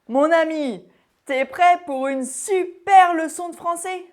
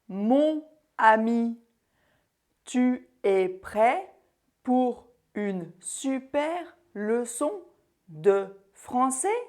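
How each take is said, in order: First: Spoken at natural speed with words contracted together. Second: Spoken robotically with every word fully articulated. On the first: It is casual speech, as between friends. The speaker calls it right. "à une vitesse normale, tout à fait naturelle, comme si je le disais à mes amis" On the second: It is not how people normally speak. The speaker calls it wrong. "je ressemblais plutôt à un robot. C'était très clair et articulé"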